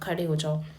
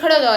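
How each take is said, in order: First: It is said as a gentle suggestion. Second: It is said as a stern command. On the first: It is a friendly suggestion. "But just a friendly suggestion" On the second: It is an order that must be obeyed. "मतलब ऐसा नहीं था कि खड़े हो जाओ, ऐसे नहीं"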